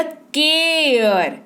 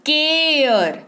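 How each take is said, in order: First: केयर stretched very slowly so the long ए-air sound is heard; drawn-out care. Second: Said in the usual way. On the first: Shown as a demonstration. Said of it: "सुनाई दिया?". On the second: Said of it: "क्या पढ़ते हैं इसको?".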